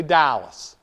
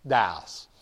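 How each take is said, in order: First: Said in the usual way. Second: Dallas with the L swallowed, like tæ-əs; Texan Dallas. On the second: Shown as a demonstration. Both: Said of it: "Say Dallas".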